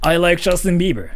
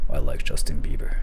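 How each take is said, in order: First: A confident, intense and clear voice. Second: A deep voice that sounds creepy, not confident. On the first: The speaker comes across as persuasive. The speaker calls it right. "It's all about your confidence, like your intensity, clarity" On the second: The speaker comes across as unsettling. The speaker calls it wrong. "you can just sound deep and you can still sound stupid"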